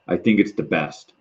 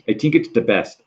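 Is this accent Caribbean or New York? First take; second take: New York; Caribbean. First: It is said in a New York accent. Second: It is said in a Caribbean accent. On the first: "if you hear like a, um, a movie like in New York" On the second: "maybe in a Caribbean accent"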